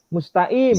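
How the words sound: The q sound is left out before the last vowel. "Kofnya hilang. Langsung dibaca i"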